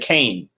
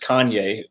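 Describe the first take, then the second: First: The name is said with one syllable. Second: The name is said with two syllables. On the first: This is how people said it before the name was known. The speaker calls it wrong. "people used to say Kane" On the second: This is the name as everyone now knows it. The speaker calls it right. "before everyone knew it was [name]"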